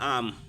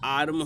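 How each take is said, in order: First: The r sound is silent. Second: The r sound is pronounced. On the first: "इसमें आर silent समझ लो रहता है" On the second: "आर्म होने चाहिए"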